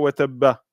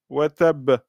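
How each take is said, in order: First: The word ends with an audible A vowel. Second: The word ends on a silent consonant B. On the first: The reader continues into the next verse. The speaker calls it wrong. "et non pas wa tabba" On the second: The reader stops at the end of the verse. The speaker calls it right. "on dirait tabbat yada abi lahabin wa tab"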